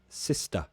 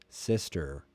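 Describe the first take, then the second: First: The word ends with a schwa, no R. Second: The word ends with a clear R sound. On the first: "British English, no" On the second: "er. That's the R sound, right?"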